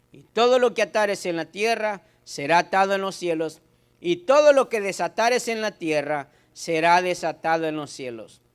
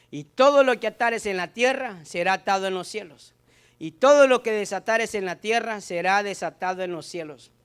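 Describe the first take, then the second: The two takes are said the same way.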